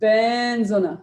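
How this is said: The stress is on ben, said positively.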